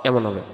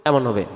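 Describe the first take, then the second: The two takes are said the same way.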